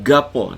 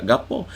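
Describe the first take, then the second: First: Kelantan accent gapo, g held and pressed, louder; Kelantan doubled g. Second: Said in the usual way. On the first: Shown as a demonstration. Teacher showing how Kelantan people really say gapo, Kelantan accent. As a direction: gapo with a hard doubled initial g. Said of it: "Jadi tasydid awal tu". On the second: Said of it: "orang Kelantan tak akan".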